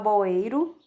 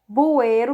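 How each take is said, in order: First: The first vowel sounds like O. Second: The first vowel sounds like U.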